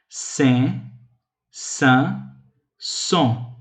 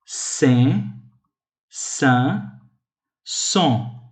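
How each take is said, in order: Both takes have the same delivery.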